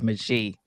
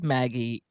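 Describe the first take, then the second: First: The name is pronounced the French way. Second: The name is pronounced the American way. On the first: "the French version of it is Magie" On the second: "it says Maggie ... that's the American version of it"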